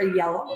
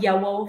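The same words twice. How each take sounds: First: Said in the usual way. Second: "yellow" said with a W for the L, like "yewow"; child's error: "yellow" with a W sound for the L. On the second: Shown as a demonstration. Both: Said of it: "kids who make a W instead of an L".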